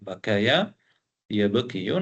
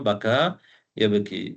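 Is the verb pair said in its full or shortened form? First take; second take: full; shortened. First: The words end in full syllables with a glide. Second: The words end in a long vowel, no glide. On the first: This is the underlying original form. "அசில் வந்து பக்கய யபகியு" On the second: This is the form actually used. "பக்கா யப்கி என்று சொல்றோம்"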